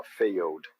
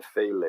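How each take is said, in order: First: "failed" jumping straight from the L to a plain D sound; "failed" ending on a D with no E; right way. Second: "fail" with no D sound at the end, the E stuck to the L; "fail" without jumping to the D; wrong way. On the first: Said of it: "Eu vou pular do L pro D". ("failed" pulando do L direto pro som de D) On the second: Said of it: "O que que eu não vou fazer?". ("fail" pronunciado errado, sem o som de D) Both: Shown as a demonstration.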